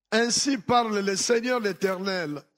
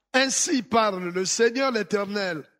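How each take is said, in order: No difference in how they are said.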